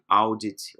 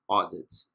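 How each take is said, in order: First: The first vowel glides from A to U. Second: The first vowel is a single open O. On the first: The speaker calls it wrong. "nunca pronunciem audit" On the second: The speaker calls it right. "como se fosse um O em aberto"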